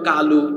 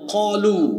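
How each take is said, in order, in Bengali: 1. প্রথম ব্যঞ্জনটি একটি হালকা, সাধারণ k। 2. প্রথম ব্যঞ্জনটি একটি গভীর, ভারী q। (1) "এই শব্দ বাংলায় লিখতে হবে কালু" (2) "যেমন কলু"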